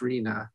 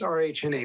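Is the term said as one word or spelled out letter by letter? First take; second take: one word; spelled out. First: It is said together as a single word. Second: It is spelled out as separate letters. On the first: "but it's pronounced R H N A" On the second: "it's R H N A"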